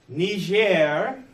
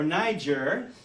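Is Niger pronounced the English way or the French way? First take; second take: French; English. First: The name is said with a French pronunciation. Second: The name is said with an English pronunciation. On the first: "depending on your pronunciation, whether it's French or English" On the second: "depending on your pronunciation, whether it's French or English"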